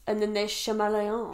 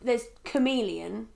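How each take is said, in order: First: Chameleon starting with "shuh-MEL"; mispronounced chameleon. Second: Chameleon said with a hard "k"; chameleon starting with "kuh-MEE"; correct pronunciation. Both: Shown as a demonstration.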